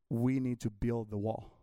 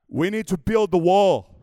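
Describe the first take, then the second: First: It is said in the speaker's normal voice. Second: It is said with a put-on accent.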